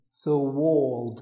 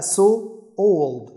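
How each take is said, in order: First: A w sound links the two words. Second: No w sound links the two words. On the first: The speaker calls it right. "كأن في وه في النص" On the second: The speaker calls it wrong. "مش هتقول بقى so old"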